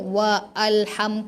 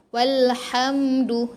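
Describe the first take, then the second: First: The 'al' is said separately with a glottal onset. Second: The 'al' runs straight on from 'wa'. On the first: The speaker calls it wrong. "tak payahlah kita wa alham ke" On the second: The speaker calls it right. "Jadi kita masuk terus"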